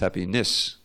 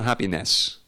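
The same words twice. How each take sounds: First: The last syllable rhymes with bliss. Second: The last syllable does not rhyme with bliss. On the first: The speaker calls it right. "This is how you pronounce it. Because it's, it's so this rhymes with bliss" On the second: The speaker calls it wrong. "it's not happiness"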